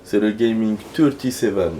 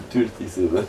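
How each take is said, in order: First: Said in the usual way. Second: Thirty-seven as "tulti-sevè", heavy French accent; hammed-up French accent on Thirty-seven; French accent in English. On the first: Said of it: "je me fais rire avec un accent". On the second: Shown as a demonstration. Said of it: "je me fais rire avec un accent, là, mon accent à la con".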